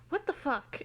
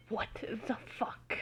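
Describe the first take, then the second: First: Said in the usual way. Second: Slow, softer, whispered curse; quiet mutter. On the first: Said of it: "is really the only proper reaction". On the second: Acted. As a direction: mutter it under your breath in shock. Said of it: "muttered a quiet".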